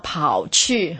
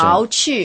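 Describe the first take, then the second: First: The first syllable has a low dipping tone. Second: The first syllable has a rising tone. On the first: It means running off somewhere. "第三声" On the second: It means deducting something. "第二声"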